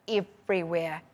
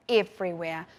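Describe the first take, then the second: No difference in how they are said.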